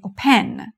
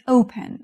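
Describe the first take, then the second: First: اوپن with the stress wrongly on its last syllable; stress on second syllable. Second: اوپن with the stress correctly on its first syllable. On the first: English teacher demonstrating the wrong stress to students, stress on final syllable. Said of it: "ما نمیگیم". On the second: English teacher showing students the correct word, stress on first syllable. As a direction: hit the opening syllable of اوپن, let the second fall away. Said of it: "استرس رو سیلاب اوله". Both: Shown as a demonstration.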